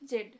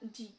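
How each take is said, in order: First: It ends with a d sound. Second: It ends with a long ee vowel. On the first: "British অ্যাকসেন্টে দেখি যে জেড" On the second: "American অ্যাকসেন্টে হচ্ছে জি"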